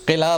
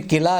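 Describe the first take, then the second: First: "किला" with throaty q and short i; careful "किला" from back of throat; accepted pronunciation. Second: "किला" with plain front k; everyday "किला" with ordinary k; common mispronunciation. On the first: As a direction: say "किला" as qila. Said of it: "इसके दो तलफ़ुज़ हैं". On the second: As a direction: say "किला" as kila, no throaty q. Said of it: "किला ना बोलें". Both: Shown as a demonstration.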